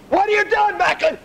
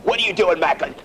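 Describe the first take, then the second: First: Yelled repeat. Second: Said in the usual way. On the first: Acted. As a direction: raise the voice on the repeat. Instructor yelling the question again.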